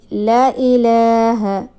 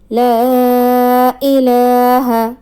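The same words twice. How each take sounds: First: The vowel after the first l is short. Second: The vowel after the first l is long. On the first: The speaker calls it wrong. "if anybody omit alif from lam... a major mistake" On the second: The speaker calls it right. "Empty alif before fatha, it will belong"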